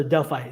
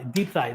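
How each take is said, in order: First: "Delphi" said DEL-fye, with an l and f; mistaken name reading. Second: "Deep Thigh" said DEEP-thigh, with p and th; corrected name reading. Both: Shown as a demonstration. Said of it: "My, my apologies".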